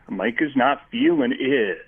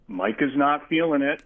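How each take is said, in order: First: The word it is stressed. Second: The word it is not stressed.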